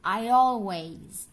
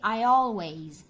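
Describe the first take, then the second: Both takes have the same delivery.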